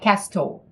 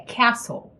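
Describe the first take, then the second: First: A t sound is pronounced in the middle. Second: The t is silent in the middle. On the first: The speaker calls it wrong. "Não é castle" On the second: The speaker calls it right. "é castle ... não tem o T"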